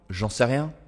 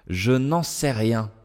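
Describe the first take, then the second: First: The ne is dropped and je contracts. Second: Every word is said, including the ne.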